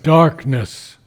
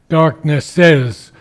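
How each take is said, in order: First: The word ends without any extra syllable. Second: The word ends with an extra 'iz' syllable. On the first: The speaker calls it right. "but darkness" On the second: The speaker calls it wrong. "we don't say darkness says"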